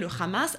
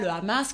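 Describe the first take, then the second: First: Hamas starts with a throaty rasping sound. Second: Hamas starts with a plain vowel, no rasp. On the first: "qui dirait le Hamas" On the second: "qui dit pas le Hamas"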